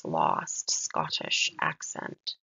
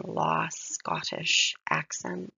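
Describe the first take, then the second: First: Slow "lost, Scottish accent" with the T's released; crisp S and T sounds. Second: Slow, hissing S in "lost, Scottish accent"; drawn-out S sounds. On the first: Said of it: "both of those S and T's". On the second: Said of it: "S's again". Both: Shown as a demonstration.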